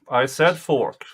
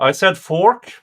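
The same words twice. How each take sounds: First: Said in the usual way. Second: Said punched higher and louder, rising; stress on said. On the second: Real, not acted. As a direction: insist hard on said, then fork. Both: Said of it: "It's my Swedish accent".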